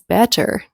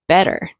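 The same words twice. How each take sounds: First: The middle T is a clear, released T. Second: The middle T is a quick flap sound. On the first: "this person didn't pronounce better as better" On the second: "They said better"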